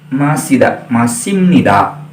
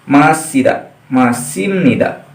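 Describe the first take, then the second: Both takes have the same delivery.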